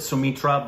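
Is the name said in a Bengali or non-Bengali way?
non-Bengali. The name is said in a non-Bengali way. This is how some people elsewhere say it. "some would pronounce it"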